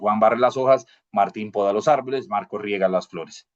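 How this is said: Short pauses separate the three clauses. The clauses are separated by commas. "pues es más rápido"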